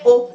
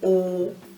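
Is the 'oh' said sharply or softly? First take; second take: sharply; softly. First: The exclamation is said sharply and abruptly. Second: The exclamation is said softly and evenly. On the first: The reply carries a harder edge. "it's a little sharper" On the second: The statement is simply acknowledged. "you say oh"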